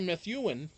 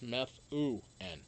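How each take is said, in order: First: The middle vowel is not a soft ooh. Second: The middle vowel is a soft ooh. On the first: The speaker calls it wrong. "Some people say Methuen, but that's not it" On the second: The speaker calls it right. "The U is like a, a soft U. It's like a ooh"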